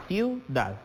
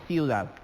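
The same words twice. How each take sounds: First: "ciudad" in two separate syllables, ciu-dad; split into syllables. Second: Said in the usual way. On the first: Shown as a demonstration. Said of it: "La sílaba tónica recae en dad". ("ciudad" separando las sílabas: ciu-dad) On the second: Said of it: "La primera es".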